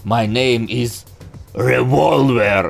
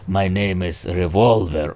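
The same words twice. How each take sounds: First: It is said dramatically, with a pause before the name. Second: It is said flatly, with no emphasis anywhere. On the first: The speaker calls it right. "он прям вот револьвер так выйдет" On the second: The speaker calls it wrong. "вообще нету каких-то акцентов"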